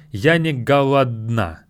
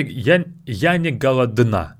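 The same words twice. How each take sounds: First: Голодна with the d barely heard, almost dropped; голодна with a swallowed d; the right way to say it. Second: Голодна with a clear d sound; голодна with every sound spelled out; wrong way to say it. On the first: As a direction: let the d in голодна almost vanish. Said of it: "It's more like". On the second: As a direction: say голодна with the d fully spoken. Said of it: "We don't really say it like that". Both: Shown as a demonstration.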